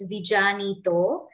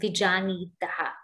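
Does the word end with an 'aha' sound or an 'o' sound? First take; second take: o sound; aha sound. First: The word ends with an 'o' sound. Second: The word ends with an 'aha' sound. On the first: The word is joined to the next by sandhi. "you will see in your books, it's vijanito" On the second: The sandhi is broken because of a pause. "it becomes vijanitaha when we break it"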